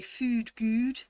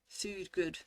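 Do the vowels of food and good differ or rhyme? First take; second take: rhyme; differ. First: Both words share the same vowel and rhyme. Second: The two words have different vowels. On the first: This is how some other accents say it. "some accents you would say food good, and it would sound the same" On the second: This is the speaker's own accent. "for me, food and good sound different. They don't rhyme"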